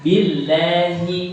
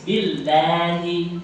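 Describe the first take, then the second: First: "Billahi" with a heavy doubled l, slow; the mistaken heavy billah; wrong thick billah. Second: "Billahi" light and thin, very slow. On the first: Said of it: "Bukan billah, tipis". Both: Shown as a demonstration.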